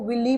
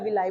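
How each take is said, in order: First: The word ends with an 'ee' sound. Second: The word ends with an 'eye' sound. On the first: "चाहे आप इसको विली pronounce करो" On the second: "चाहे विलाई pronounce करो, that is totally up to you"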